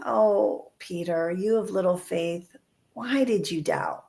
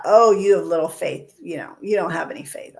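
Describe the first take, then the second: First: Tender. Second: A bit louder, a stern teacher's reproach; mild scolding. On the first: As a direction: soften it, reach out to him with the words. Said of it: "that's tenderness". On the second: Jesus as some teach him, scolding Peter, mildly stern. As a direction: scold him lightly, half-hearted. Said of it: "I've heard it taught". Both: Retold or imitated.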